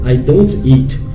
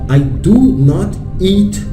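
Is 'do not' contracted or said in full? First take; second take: contracted; full. First: The words 'do not' are contracted to 'don't'. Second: The words 'do not' are said in full. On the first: A plain statement. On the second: An emphatic statement.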